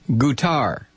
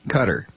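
First: The name does not sound like 'cutter'. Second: The name sounds like the word 'cutter'. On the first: This is how local people say it. The speaker calls it right. "It's pronounced Qatar. This is the way the people of Qatar pronounce it" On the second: This is how most Americans say it. The speaker calls it wrong. "I still wince when I hear it pronounced like a Coast Guard ship"

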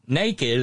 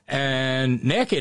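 First: The first vowel is a long 'ay' sound. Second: The first vowel is a short 'eh' sound. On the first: Having no clothes on. "the definitional difference between NAKED and NEKKID" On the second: Having no clothes on and being up to something. "on the other hand"

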